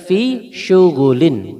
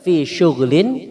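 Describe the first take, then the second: First: The gh sound is followed by an u vowel. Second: The gh sound has no vowel after it. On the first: "wa dhammiha" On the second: "bisukunil ghin"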